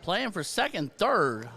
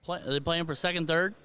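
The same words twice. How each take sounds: First: "second" and "third." both falling firmly; falling statement. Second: "second, third?" both rising like a question; questioning tune. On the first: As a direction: state "Playing for second, third." with settled falls. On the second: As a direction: ask "playing for second, third?" with rising ends. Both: Real, not acted.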